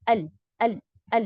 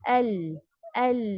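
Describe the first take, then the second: First: The L sound is cut off abruptly and quickly. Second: The L sound is held for a moderate length. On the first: The speaker calls it wrong. "जल्दी से अल अल अल इस तरीके से नहीं ... शिद्दा की सिफत इसमें आ गई" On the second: The speaker calls it right. "Moderation"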